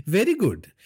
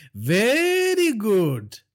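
First: High, chuckling Very good; laughing villain. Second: High, very slow drawn very good; drawn-out villain. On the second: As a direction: stretch very good out slowly. Villain drawls. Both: Acted.

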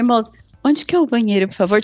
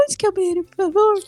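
First: Said in the usual way. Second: Higher, sugary, polite plea; cute sweet asking. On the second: Shown as a demonstration. Asking the librarian for the toilet, sweetly high. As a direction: sweeten it up like a shy girl. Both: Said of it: "Tipo, fofa".

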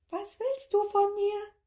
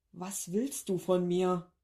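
First: Very high, louder squeaky copy; tiny creature mimicking the plea; squeaky echo. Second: Slow desperate question; a worn-out professor begging; despairing plea. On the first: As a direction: squeak it back at him. Creature echoes him. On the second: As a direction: plead slowly, at wits' end. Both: A narrator's reading.

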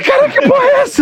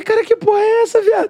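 First: Very high, loud, laughing outburst; amazed shout. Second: High, startled outburst; surprised exclaim. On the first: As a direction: shriek it in laughing disbelief. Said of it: "Eu falei". (grito espantado rindo) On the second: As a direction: blurt it out in disbelief. (exclamação espantada) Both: Retold or imitated.

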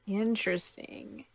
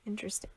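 First: Said in the usual way. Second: Hushed whisper of interesting. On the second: Real, not acted. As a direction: breathe it out in a whisper.

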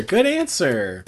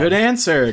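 First: Drawn-out slow repeat. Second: Said in the usual way. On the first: Shown as a demonstration. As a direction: stretch each word slowly. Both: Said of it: "repeated take".

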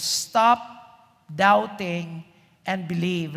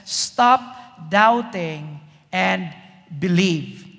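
First: Said in the usual way. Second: Stretched slow, word by word; slow command. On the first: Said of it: "focus on that phrase". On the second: Acted. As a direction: draw out the command. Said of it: "Jesus says".

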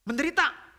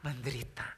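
First: "Menderita" thrown out high and loud; rousing question. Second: "Menderita" low and soft, falling; subdued answer. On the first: Preacher asks congregation "Menderita", loud high question. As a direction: call out "Menderita" as a raised challenge. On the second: Preacher answers his own question, "Menderita" low and subdued. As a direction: concede "Menderita" quietly with a dropping tune. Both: Real, not acted.

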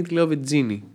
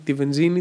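First: "βενζίνη" with dz in the middle, ven-DZI-ni. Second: Said in the usual way. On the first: Shown as a demonstration. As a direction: harden the z of "βενζίνη" into dz. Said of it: "νζι, γίνεται τζι". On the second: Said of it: "τη βενζίνη τη λέω βενζίνη".

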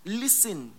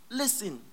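The two takes are said the same way.

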